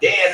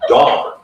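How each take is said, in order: First: The vowel is the 'a' of 'Dan'. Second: The vowel is the 'o' of 'Don'. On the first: The speaker calls it wrong. "No, it's not Dan. It's not uh, Lieutenant Dan" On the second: The speaker calls it right. "It's Don"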